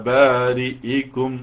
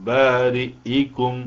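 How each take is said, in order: No difference in how they are said.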